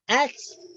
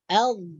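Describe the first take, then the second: First: It ends with a ts sound. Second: It ends with a soft th sound. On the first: The speaker calls it wrong. "itu salah juga" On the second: The speaker calls it right. "hujung lidah kita akan keluar sedikit"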